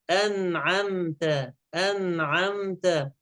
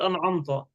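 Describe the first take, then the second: First: "أنعمت" slow, thin front vowels throughout; careful correction, no heaviness in "أنعمت"; all light. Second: "أنعمت" with thickened, dark vowels; quick faulty an'amto for "أنعمت"; wrong heaviness. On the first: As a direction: draw out a light an'amta for "أنعمت". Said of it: "الكلمة كلها مرققة". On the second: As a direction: darken the final "ta" of "أنعمت". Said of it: "لا نقول أنعمت". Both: Shown as a demonstration.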